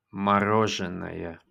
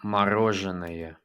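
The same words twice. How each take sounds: The two takes are said the same way.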